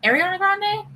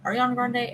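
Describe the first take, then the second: First: "Ariana Grande" tried out higher, rising like a question; "Ariana Grande" said as an unsure, high-pitched question; questioning pronunciation. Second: Said in the usual way. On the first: Shown as a demonstration. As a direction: lift "Ariana Grande" high at the end, testing it. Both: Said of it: "Potato, potato".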